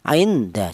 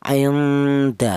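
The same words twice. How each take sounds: First: The n is pronounced fully and distinctly. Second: The n is blurred into a nasal hum. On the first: The speaker calls it wrong. "jangan dibaca idhar atau jelas" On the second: The speaker calls it right. "dibaca ikhfa atau dibaca samar"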